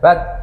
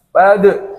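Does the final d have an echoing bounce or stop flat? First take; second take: flat; bounce. First: The final d stops flat with no bounce. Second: The final d is released with a bouncing echo. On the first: The speaker calls it wrong. "bukan bad" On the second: The speaker calls it right. "Suaranya harus mantul"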